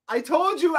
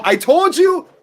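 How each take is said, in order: First: Said in the usual way. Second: High, loud i-told-you-so; triumphant shout. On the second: Real, not acted. Watch-along host crowing at chat over the yellow, loud and high. Yellow card after warning.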